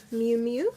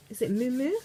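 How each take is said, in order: First: "Miu Miu" said as "myoo myoo", still rising; retry "Miu Miu" with a clear "myoo"; trying the brand name again as "myoo myoo"; corrected pronunciation. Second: "Miu Miu" said as "moo moo", rising as if asking; hesitant "Miu Miu?" with the vowel like "moo"; checking aloud how to say "Miu Miu"; unsure pronunciation. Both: Real, not acted. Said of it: "M I U".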